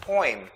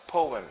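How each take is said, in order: First: Poem as "poym"; childhood pronunciation. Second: Poem as "POH-em"; professor's pronunciation. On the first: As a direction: say "poem" with an OY glide. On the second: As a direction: say "poem" in two syllables with OH. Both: Shown as a demonstration. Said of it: "it should be pronounced as poem".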